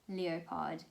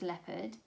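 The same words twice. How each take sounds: First: The word is sounded out following its spelling. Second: The word is said with its usual pronunciation. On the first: The speaker calls it wrong. "I would say leopard" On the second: The speaker calls it right. "It didn't register as leopard"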